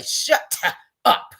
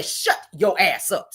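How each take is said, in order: First: Breathy, almost whispered "Shut up"; weak shut up. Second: Slow, firm "Shut your ass up"; really mean it; "Shut your ass up" slow and hard; full shut your ass up. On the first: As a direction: toothless "Shut up". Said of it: "You can say". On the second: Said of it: "But then when you say". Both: Shown as a demonstration.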